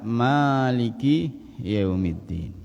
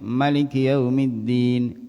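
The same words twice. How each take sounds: First: The first vowel of Maliki is drawn out long. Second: The first vowel of Maliki is kept short. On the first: The one who owns and controls. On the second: The king.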